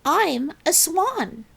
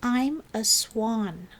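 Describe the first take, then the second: First: Higher and more assured, slow; louder. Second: Slow, unsure and tentative; doubtfully. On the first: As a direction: say it like you believe it. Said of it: "She said it louder". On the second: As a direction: say it not believing it yet. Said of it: "Trudy said doubtfully". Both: A narrator's reading.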